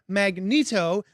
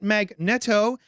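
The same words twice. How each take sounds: First: It sounds like the electrical device. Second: It begins like the word magnet. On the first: "like the fami- familiar electrical device" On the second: "as in magnet"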